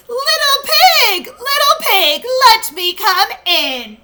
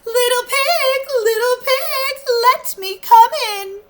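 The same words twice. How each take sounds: First: High, loud wolf call; raised, demanding wolf call; louder voice. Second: High, sugary wolf coaxing; high and sweetly wheedling; sweetest voice. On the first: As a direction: call louder through the door. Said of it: "in a louder voice he called". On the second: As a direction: sweet-talk the pig to open the door. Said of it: "in his sweetest voice he called". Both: Acted.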